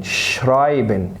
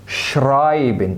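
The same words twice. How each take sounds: First: "شرايبن" again slowly, shrai-ben; slow repeat. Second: "شرايبن" very slow, shrai-ben; slow German word. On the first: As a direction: echo "شرايبن" slowly, syllable by syllable. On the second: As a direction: stretch "شرايبن" out slowly, ai as in eye. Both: Shown as a demonstration. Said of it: "الاي تنطق اي".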